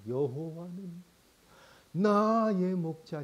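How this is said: It is read with deep, moving emotion.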